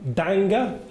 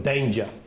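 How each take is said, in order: First: The g is hard, like in anger. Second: The g is soft, like a j. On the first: The speaker calls it wrong. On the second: The speaker calls it right.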